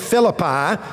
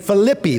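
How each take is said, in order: First: The name is pronounced the usual English way. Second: The name is pronounced the modern Greek way. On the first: "they don't say Philippi" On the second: "they say Philippi. That's how they say the city"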